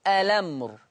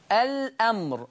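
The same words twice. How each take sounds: First: "الأمر" as a-lamr, no glottal stop; hamza transfer. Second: "الأمر" as al-'amr, with glottal stop; original hamza. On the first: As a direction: glide the l of "الأمر" into the vowel. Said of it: "بشيل الهمزة وانقل الحركة". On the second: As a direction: break "الأمر" after the l. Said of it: "الأمر تقرأ". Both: Shown as a demonstration.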